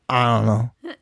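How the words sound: The words are mumbled and indistinct. The person is unsure how they feel. "It's the mumble"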